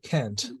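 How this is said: It is said with an American-style vowel.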